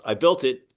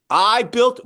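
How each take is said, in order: First: Said in the usual way. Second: "I" drawn out, high and loud; stress on I. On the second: Real, not acted. Builder catches himself taking all the credit, heavy stress on "I". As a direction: punch "I" loudly, pitch raised, then break off. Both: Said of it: "no, we built it".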